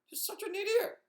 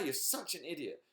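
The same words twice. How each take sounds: First: It is said in a Mickey Mouse voice. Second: It is said in her normal voice.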